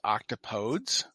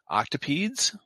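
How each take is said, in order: First: The ending does not rhyme with 'please'. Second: The ending rhymes with 'please'. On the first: The speaker calls it wrong. "apparently I've been pronouncing it wrong" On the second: The speaker calls it right. "more appropriately rhymes with the phrase "don't say please.""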